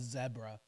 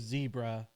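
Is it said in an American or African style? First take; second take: African; American. First: It is said the way African countries say it. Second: It is said the way Americans say it.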